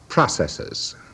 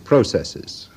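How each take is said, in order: First: It is said with an American pronunciation. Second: It is said with a British pronunciation.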